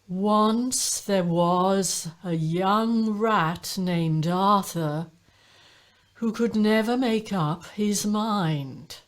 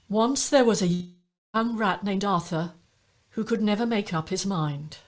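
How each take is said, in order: First: Every syllable is stretched out long. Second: The syllables are spoken at normal length.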